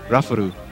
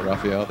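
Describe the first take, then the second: First: The name is said with Japanese-style sounds. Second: The name is said with English sounds. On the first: This is how others try to say the name. "I like when they try to say my name" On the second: This is how the owner says the name. "my name"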